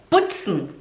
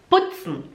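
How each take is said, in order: No difference in how they are said.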